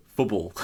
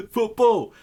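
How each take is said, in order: First: Said in the usual way. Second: "Football!" called out much higher and louder, falling; proud shout. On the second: Shown as a demonstration. Streamer proudly shouting "Football!" for everyone to understand. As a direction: shout the word "Football!" triumphantly. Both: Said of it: "I want to just be able to go".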